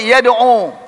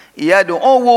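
First: Said in the usual way. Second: "Yad'u" with an extra -wu syllable at the end; waw voweled. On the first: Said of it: "Bisa diharakkan wawnya?". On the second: Shown as a demonstration. Teacher shows students the waw can be voweled, "Yad'u" ending in -wu. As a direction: sound out the hidden dhamma on the waw of "Yad'u": yad-'u-wu. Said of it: "Masih bisa dibaca wawnya".

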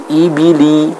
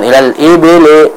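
First: "ibili." with clear I, jaw lowered; "ibili." slowly with pure I; correct I vowel. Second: "ilal ibili," with E vowels, like ebele; "ilal ibili," read as ilal ebele; wrong E vowel. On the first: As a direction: draw out a clean I in "ibili.". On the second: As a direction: let "ilal ibili," slide to E. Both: Shown as a demonstration.

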